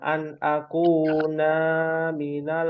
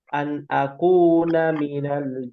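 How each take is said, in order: First: The vowel of 'na' is drawn out long. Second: The vowel of 'na' is kept short. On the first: The speaker calls it wrong. "itu salah" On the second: The speaker calls it right. "Yang betul"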